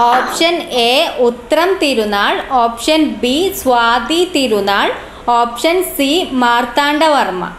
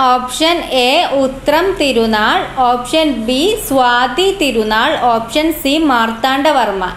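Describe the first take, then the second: Both takes have the same delivery.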